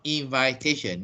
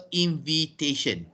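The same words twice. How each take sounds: First: "invitation" as in-VAI-tation; wrong pronunciation. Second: "invitation" as in-vi-tation in a sentence; correct pronunciation. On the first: Teacher citing the error after the example, long-I pronunciation. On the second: Teacher modelling the noun in an example sentence, short-i pronunciation. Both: Shown as a demonstration. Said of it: "not invitation".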